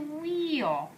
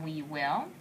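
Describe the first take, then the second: First: The two words merge into one short syllable. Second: Two full words are said, we and will. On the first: "to wheel" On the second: "we go from we will"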